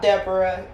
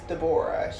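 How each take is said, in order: First: The name is said the usual English way. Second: The name is said the Hebrew way. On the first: The speaker calls it wrong. "It is not Deborah" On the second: The speaker calls it right. "the correct Hebrew pronunciation is Deborah"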